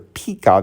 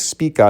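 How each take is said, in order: First: The name begins with a P sound. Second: The name begins with an S sound. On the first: The speaker calls it wrong. "mispronounced as Pika" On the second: The speaker calls it right. "I say it's Spica"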